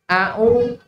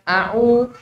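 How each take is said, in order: No difference in how they are said.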